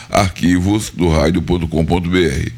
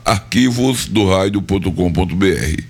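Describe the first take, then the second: No difference in how they are said.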